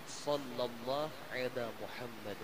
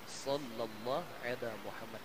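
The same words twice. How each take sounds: No difference in how they are said.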